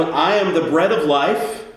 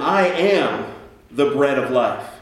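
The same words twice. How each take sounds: First: I am the bread of life, stress rising on am; light lift on am; first take, rising on am; first reading. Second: I am the bread of life, weight on I, slow falling; second take, stress moved to I; shifted emphasis. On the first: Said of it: "Let me, let me try that again". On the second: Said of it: "change the, uh, emphasis there". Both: Shown as a demonstration.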